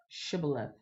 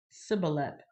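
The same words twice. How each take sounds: First: "shibboleth" opening on a soft-spoken sh; correct sh pronunciation. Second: "Sibboleth" opening on a plain s sound; Ephraimite mispronunciation. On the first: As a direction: say "shibboleth" with sh, not s. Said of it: "They couldn't say sh". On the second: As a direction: say "Sibboleth" with s in place of sh. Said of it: "They could only say s". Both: Shown as a demonstration.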